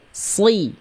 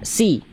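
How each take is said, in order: First: The s is emphatic, with the tongue root raised. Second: The s is plain, with a relaxed tongue. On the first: "sekarang angkat pangkal lidahnya" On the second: "coba Bunda lafalkan si biasa"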